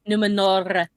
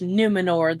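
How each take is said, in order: First: The R in the name is rolled strongly. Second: The R in the name is rolled lightly. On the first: The speaker calls it right. "We have to roll one more R every single time" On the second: The speaker calls it wrong. "You didn't say it right"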